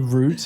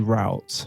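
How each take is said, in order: First: It is said the British way. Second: It is said the American way.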